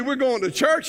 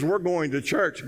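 First: Raised pitch, disbelieving question; incredulous echo. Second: Slow, settled statement at usual pitch; firm answer. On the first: Husband questioning his wife's church plan, incredulous. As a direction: throw it back as an incredulous question. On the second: Wife answering her protesting husband, slow and firm. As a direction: state it slowly, no argument allowed. Wife's unbudging answer, retold. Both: Acted.

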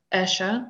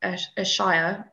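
First: "Ayrshire" with a reduced "shuh" ending; alternative pronunciation. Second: "Ayrshire" ending in a full "shy-er"; unsure pronunciation. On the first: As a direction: say "Ayrshire" as "AIR-shuh", second vowel weak. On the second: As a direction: say "Ayrshire" with the second part like "shire" in hobbit country. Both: Shown as a demonstration. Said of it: "I don't know how to pronounce it".

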